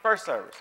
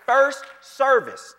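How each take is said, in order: First: Said in the usual way. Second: First service dragged out slow, loud and high; "First service" slow, louder, higher; stressed, drawn out. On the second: Shown as a demonstration. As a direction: stretch "First service" for emphasis. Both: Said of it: "What service?".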